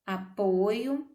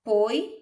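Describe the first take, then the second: First: Said in the usual way. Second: Apoio set apart after a pause, rising at the end; syllable split demo. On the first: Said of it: "Vejam que apoio". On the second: Shown as a demonstration. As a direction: pull apoio apart slowly to show the hiatus. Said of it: "Temos um ditongo no o e no i, a".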